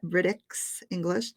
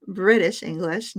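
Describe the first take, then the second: First: "British" with an x, as BRIT-iks; misspelling read out. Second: Said in the usual way. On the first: Shown as a demonstration. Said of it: "I spelled British with an X H". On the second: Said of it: "this should say American English".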